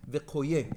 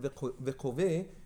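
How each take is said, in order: First: The third consonant is a y sound. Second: The third consonant is a v sound. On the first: The speaker calls it right. "it's supposed to be pronounced Vekoye" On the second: The speaker calls it wrong. "instead of pronouncing the word Vekove"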